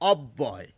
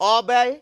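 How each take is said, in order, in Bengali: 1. b ধ্বনিটি দ্বিত্ব, একটু বেশি সময় ধরে উচ্চারিত হয়। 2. b ধ্বনিটি একক, দ্বিত্ব নয়। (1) "এই অ যোগ করে যে শব্দটি হলো তার উচ্চারণ" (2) "তাহলে বলা উচিত অব্যয়, তা কিন্তু আমরা বলি না"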